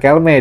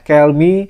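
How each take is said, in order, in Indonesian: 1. Namanya berakhir dengan vokal 'eh'. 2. Namanya berakhir dengan vokal 'ee'. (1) "bukan Kelme" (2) "dibacanya ternyata Kelmi"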